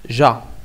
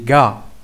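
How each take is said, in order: First: The syllable starts with a soft j sound. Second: The syllable starts with a hard g sound. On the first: The speaker calls it wrong. "Ça se prononce pas ja" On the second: The speaker calls it right. "C'est ga"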